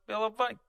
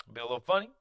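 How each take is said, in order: First: Much higher, goofy sing-song; playful funny voice. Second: Said in the usual way. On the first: Shown as a demonstration. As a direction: show being funny with a jump up in pitch.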